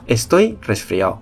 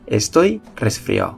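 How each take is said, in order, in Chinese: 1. 'resfriado' 最后一个音节的 d 会省略不发。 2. 'resfriado' 最后一个音节的 d 会省略不发。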